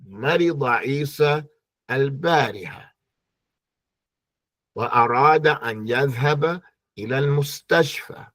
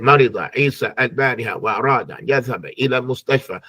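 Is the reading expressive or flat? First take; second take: expressive; flat. First: It is read with lively, varied expression. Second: It is read flatly, without any expression. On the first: It sounds like talking to somebody. The speaker calls it right. "some type of expression and life and flavor" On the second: It sounds like just reading off the paper. The speaker calls it wrong. "shout at the paper there and just say"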